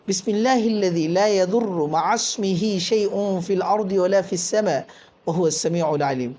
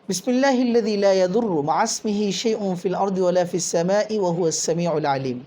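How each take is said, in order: First: It is recited slowly and deliberately. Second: It is recited at a normal pace.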